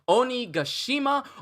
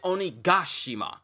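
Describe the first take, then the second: First: The syllable ga is not given extra stress. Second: The syllable ga is stressed more than others.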